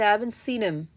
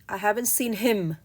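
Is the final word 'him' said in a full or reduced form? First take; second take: reduced; full. First: The word 'him' is said in its weak form. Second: The word 'him' is said in its full form. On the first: The speaker calls it right. "You say" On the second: The speaker calls it wrong. "we don't say"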